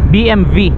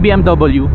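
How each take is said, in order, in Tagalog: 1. Ang huling letra ay tunog 'vee'. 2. Ang huling letra ay tunog 'double-u'. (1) "ang talagang pronunciation daw pala niyan, B M V, as in victory" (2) "hindi B M W"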